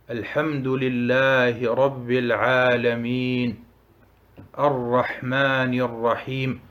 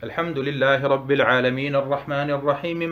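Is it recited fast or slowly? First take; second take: slowly; fast. First: It is recited slowly. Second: It is recited fast.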